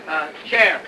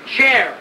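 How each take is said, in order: First: Said in the usual way. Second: Calling out. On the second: Acted.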